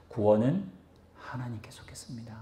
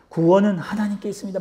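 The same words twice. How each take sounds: First: Hushed whispered declaration. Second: Said in the usual way. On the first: Real, not acted. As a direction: whisper the key line, almost no voice. Sermon conclusion, hushed key line.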